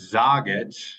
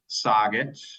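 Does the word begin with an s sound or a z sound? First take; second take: z sound; s sound. First: The word begins with a harder z sound. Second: The word begins with a soft s sound. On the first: "That Z being a little bit harder than the S" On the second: "soggit for outside"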